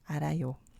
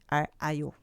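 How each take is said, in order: First: The consonant links smoothly into the next syllable. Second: The word is split with a break mid-word. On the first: The speaker calls it right. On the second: The speaker calls it wrong.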